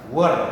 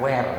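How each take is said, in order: First: The word does not sound like 'where'. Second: The word sounds like 'where'. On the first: The speaker calls it right. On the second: The speaker calls it wrong.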